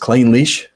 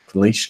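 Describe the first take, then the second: First: The word is said slowly and carefully. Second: The word is said quickly and run together. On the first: "But it's Clynelish" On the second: "It's just because I was saying it so fast"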